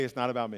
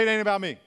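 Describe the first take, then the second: First: Low, measured declaration; like you mean it. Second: Loud declaration for a crowd to repeat; loud rallying call. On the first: Pastor leads congregation after a deep breath, sincerely. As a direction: say it deliberately, meaning every word. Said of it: "say it like you mean it". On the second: Pastor gets the congregation to repeat it, loudly. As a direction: call it out forcefully. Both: Shown as a demonstration.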